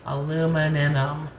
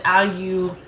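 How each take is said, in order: First: "Aluminum" slowly the American way, a-LOO-mi-num; American pronunciation. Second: "Aluminum" as British al-you-MIN-ium, syllable by syllable; British pronunciation. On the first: American comparing how the word is said, slow American "Aluminum". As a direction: draw out "Aluminum" with no "y" sound, American style. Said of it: "we say it different here in America". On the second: American finding how you all say it, British "Aluminum". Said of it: "That's how you all say it". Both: Shown as a demonstration.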